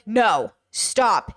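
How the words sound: It sounds firm and serious. The refusal is real and should be respected. "her stop and no should be real"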